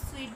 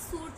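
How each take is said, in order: First: The word sounds like 'sweet'. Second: The word sounds like 'suit'. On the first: The speaker calls it right. "इसको हम स्वीट बोलते हैं" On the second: The speaker calls it wrong. "ये सूट नहीं होता"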